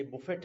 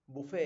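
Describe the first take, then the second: First: बुफेट ending in a clear t; t sounded. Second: बुफे ending on an open "ay"; silent t. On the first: Teacher showing the mistake, बुफेट with its t sounded. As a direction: say बुफेट as boo-FET. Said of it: "वैसे बुफेट नहीं है". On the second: Teacher correcting by analogy to valet, बुफे with no t. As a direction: say बुफे as boo-FAY. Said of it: "टी इसमें भी silent रहता है". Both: Shown as a demonstration.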